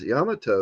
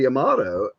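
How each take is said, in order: First: The name is said with a Japanese pronunciation. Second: The name is said with an English pronunciation. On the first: The speaker calls it right. "the first time I heard it as Yamato in Japanese" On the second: The speaker calls it wrong. "everybody you know refers to you know the ship from World War Two as the"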